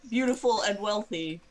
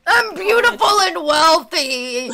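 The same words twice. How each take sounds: First: A lightly voiced copy of his whine; mimicking his voice. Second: Loud, high, slow, laughing; laughing mock. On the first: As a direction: parrot his words back in his voice. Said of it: "exactly in his voice". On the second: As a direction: echo him with a giggle. Player mocks NPC while laughing.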